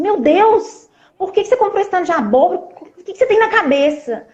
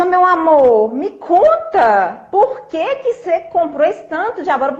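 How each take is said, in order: First: Higher, fast, pretend exasperated outburst; exasperated scolding. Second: Higher, very slow, gently coaxing; sweet calm asking. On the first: Wife pretending to scold husband over the pumpkins, exasperated. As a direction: snap at him as the urge says, higher and fast. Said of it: "xingar, né?". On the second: Retold or imitated. Wife calmly asking husband why he bought so much, gentle. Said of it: "eu vou agir diferente".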